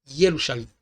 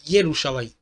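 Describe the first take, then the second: Both takes have the same delivery.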